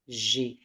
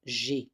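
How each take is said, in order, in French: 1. La voyelle de je tombe, donc une seule syllabe. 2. La voyelle de je tombe, donc une seule syllabe.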